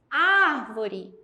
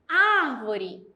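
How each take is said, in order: Both takes have the same delivery.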